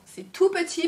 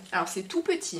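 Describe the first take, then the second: First: Higher, louder, gushing over tiny; cutesy. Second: Said in the usual way. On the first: Real, not acted. Vlogger gushing over a tiny sample, cutesy voice. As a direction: coo it like it's adorable. Cutesy repeat of same words.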